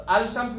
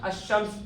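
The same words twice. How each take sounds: First: अल शम्स with the लाम clearly said, al shams; teacher saying अल शम्स as the wrong way, with a clear al; wrong reading. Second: अश शम्स with the लाम merged into a doubled sh, ash-shams; teacher showing students the right अश शम्स, doubled sh; correct reading. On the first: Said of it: "नहीं पढ़ना". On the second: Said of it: "पढ़ना". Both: Shown as a demonstration.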